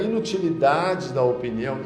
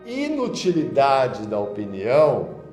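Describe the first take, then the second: First: The phrase is spoken at normal speed. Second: The phrase is spoken very slowly.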